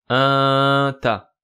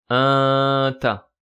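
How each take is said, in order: No difference in how they are said.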